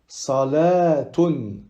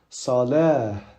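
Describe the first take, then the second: First: The word ends in a t sound plus vowel. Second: The word ends in a soft h sound. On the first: The reading continues past the word. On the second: The reading stops on the word.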